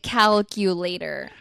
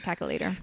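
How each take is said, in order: First: Every syllable of the word is said clearly. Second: The word is said quickly with syllables squeezed. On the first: "I can say it calculator" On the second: "when I say it fast, I say caca later"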